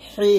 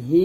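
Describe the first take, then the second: First: হি with a tight, forceful throat H; strongly pressed হি. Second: হি with an ordinary light H; light, unpressed হি; wrong soft H. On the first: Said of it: "একটু চাপ দিয়ে". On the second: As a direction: say হি plainly, no pressure in the throat. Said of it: "এটাকে হি বলবেন না". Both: Shown as a demonstration.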